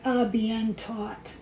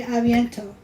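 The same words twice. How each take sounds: First: "a bien taught" slowly, word by word as written; spelling pronunciation. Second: "a bientôt" as one French phrase; French pronunciation. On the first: Showing how the French looks, slow spelling pronunciation. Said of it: "It looks like". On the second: Quoting a favorite French phrase, French pronunciation. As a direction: say "a bientôt" the French way, run together. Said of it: "when they say "a bientôt". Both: Shown as a demonstration.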